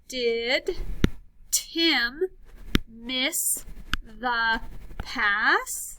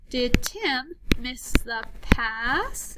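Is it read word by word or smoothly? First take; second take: word by word; smoothly. First: It is read word by word, with breaks. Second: It is read smoothly as one phrase.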